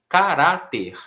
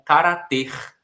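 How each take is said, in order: First: The stress is on the middle syllable. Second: The stress is on the final syllable. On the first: The speaker calls it right. "Caráter tem uma terminação em R" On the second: The speaker calls it wrong. "seria lido como carater, como se fosse um verbo"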